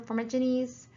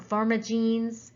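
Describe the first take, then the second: First: "formigenes" said as the first of two variants; first pronunciation attempt. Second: "formigenes" said slowly as a second variant; alternative pronunciation. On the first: Lecturer unsure of a bacteria's name, first pronunciation attempt. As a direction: try "formigenes" one way, in running speech. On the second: Lecturer unsure of a bacteria's name, slow alternative pronunciation. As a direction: offer "formigenes" another way, slower and higher. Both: Shown as a demonstration. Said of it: "however you wanna pronounce that".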